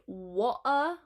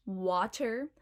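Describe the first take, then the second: First: Slow "wa-uh", throat catch for the T; glottal stop. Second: Said in the usual way. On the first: Shown as a demonstration. Teacher showing Cockney water, "wa-uh" with glottal stop. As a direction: break "wa-uh" in two, no T. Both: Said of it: "water will be wa-uh".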